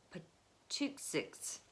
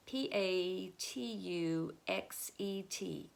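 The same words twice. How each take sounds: First: "Patuxet" slow, soft, sounded out as "ptuksiks"; careful name attempt. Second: "P A T U X E T" spelled letter by letter, slowly; spelling it out. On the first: Teacher guessing the Native place name, slow soft attempt. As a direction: feel out "Patuxet" syllable by syllable. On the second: Teacher spelling the place name for the class, slow letters. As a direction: read each letter of "P A T U X E T" deliberately. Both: Shown as a demonstration. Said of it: "I bet that's how it's said".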